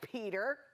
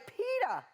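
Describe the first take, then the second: First: It is said with a standard final R sound. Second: It is said with the R dropped at the end. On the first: "he doesn't go by Peter" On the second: "He goes by pita, just like pita bread. It's a Boston accent"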